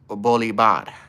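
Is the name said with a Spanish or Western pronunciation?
Spanish. The name is said with a Spanish pronunciation. "If it's like Spanish pronunciation"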